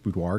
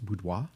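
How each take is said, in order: First: The word is pronounced in an English way. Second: The word is pronounced in a French way. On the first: It sounds plain and everyday. "I use boudoir" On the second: It sounds fancy. "if you want to get all fancy and use the pron- French pronunciation"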